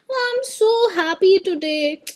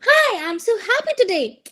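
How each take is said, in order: First: It is said in an unhappy manner. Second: It is said in a happy manner.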